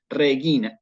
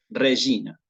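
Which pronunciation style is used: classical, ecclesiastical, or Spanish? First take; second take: classical; ecclesiastical. First: The g is hard, as in gato. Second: The g is soft, in ecclesiastical style. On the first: "Esto es la pronunciación" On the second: "en el latín eclesiástico"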